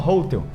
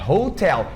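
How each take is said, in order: First: The stress falls on the first syllable. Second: The stress falls on the last syllable. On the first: The speaker calls it wrong. "As pessoas falam hotel. Só que não" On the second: The speaker calls it right. "A sílaba forte é a última"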